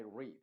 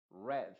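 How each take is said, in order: First: "read" said long, like "reed"; present tense read. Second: "read" rhyming with "red"; past tense read. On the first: Teacher contrasting present "read" with past "read". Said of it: "en presente... se diría I read". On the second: Teacher reading "read" in the past tense. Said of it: "Ese read está en pasado". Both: Shown as a demonstration.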